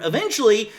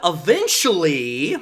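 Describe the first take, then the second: First: Said in the usual way. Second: "Eventually" drawn out slowly, rising at the end; stress on eventually. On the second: Shown as a demonstration. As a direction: lean hard on "Eventually" and stretch it. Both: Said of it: "I put heavy emphasis on the word".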